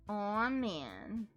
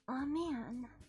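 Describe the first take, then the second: First: It is said in the speaker's own voice. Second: It is said in the character's put-on voice.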